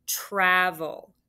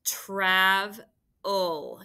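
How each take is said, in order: First: Said in the usual way. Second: "Travel" drawn out in two parts, trav, then el; split into syllables. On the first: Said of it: "the first word I want you to write is travel". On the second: Shown as a demonstration. Teacher helping pupils spell, "Travel" split syllable by syllable. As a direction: break "Travel" after the v, stretching each syllable. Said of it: "Those words are hard to tap".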